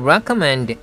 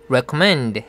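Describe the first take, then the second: First: The strongest stress is on the first syllable. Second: The strongest stress is on the last syllable. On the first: "re에다 굉장히 큰 스트레스를 줬습니다" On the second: "man을 아주 강하게 해줘야 됩니다"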